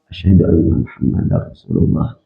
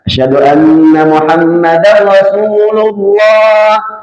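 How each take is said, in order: First: The phrase is said quietly and softly. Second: The phrase is said loudly and fully. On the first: It is the private first recitation before the call. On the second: It is the public call itself.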